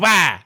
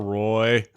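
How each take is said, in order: First: The name is said French-style, sounding like 'wah'. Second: The name is said with an English 'roy' sound. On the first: The name as he chose to pronounce it. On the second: The family's ordinary name.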